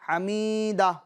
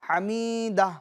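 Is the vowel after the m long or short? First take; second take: long; long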